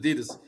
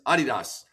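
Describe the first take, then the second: First: It is said the American way. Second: It is said the European way. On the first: "It's only America where we pronounce it Adidas" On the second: "as they say in Europe"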